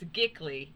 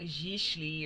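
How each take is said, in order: First: The word is said the anglicized way. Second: The word is said the French way. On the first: The speaker calls it wrong. "it's Gickley because that's how I was saying it" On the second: The speaker calls it right. "I've looked at the pronunciation, which is French. It's like Gichley or something"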